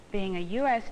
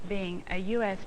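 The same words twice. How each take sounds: The two takes are said the same way.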